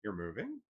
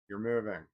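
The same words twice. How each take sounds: First: "moving" sweeping sharply up at the end; rising tone of surprise. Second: "moving" dropping at the end, as a statement; falling tone. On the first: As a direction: ask "You're moving" as a surprised question. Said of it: "with a rising tone communicates surprise". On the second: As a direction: state "You're moving" as plain fact, pitch falling. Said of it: "with a falling tone acknowledges a fact". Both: Shown as a demonstration.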